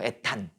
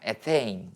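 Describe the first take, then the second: First: The word ends in a short 'tan' sound. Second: The word ends in a 'tein' diphthong sound. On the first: This is the older Japanese-style reading. "일본식 발음이죠" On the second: This is the newer English-style reading. "이게 영어식으로 최근에 표기법이 바뀐 거야"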